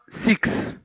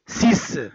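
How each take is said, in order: First: The final consonant is sounded as KS. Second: The final consonant is sounded as S. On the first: The speaker calls it wrong. "c'est pas six. On ne prononce pas X" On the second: The speaker calls it right. "On le prononce C"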